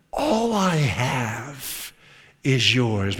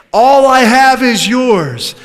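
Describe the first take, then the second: First: Softer, very slow and low; tender hush. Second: Louder, higher and slow, ringing out; proclaimed aloud. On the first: Father softly reassuring his angry son, tender hush. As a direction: breathe the father's promise gently. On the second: Preacher proclaiming the father's words, ringing declaration. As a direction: declare it to the whole church. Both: Shown as a demonstration.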